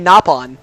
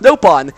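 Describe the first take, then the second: First: The first vowel sounds like 'ah'. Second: The first vowel sounds like 'oh'. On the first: This is the original intended name. The speaker calls it right. "It's supposed to be" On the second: This comes from a mistranslation. The speaker calls it wrong. "but in this game it's pronounced"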